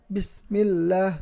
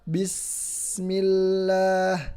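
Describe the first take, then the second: First: The s sound is cut off abruptly. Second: The s sound is held and lengthened. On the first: The speaker calls it wrong. "Jadi jangan diputus. ... Tidak boleh seperti itu" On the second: The speaker calls it right. "Jadi agak ditahan dan agak dipanjangkan"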